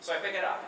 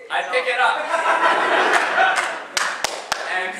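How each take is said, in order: First: Said in the usual way. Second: Laughing. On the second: Real, not acted.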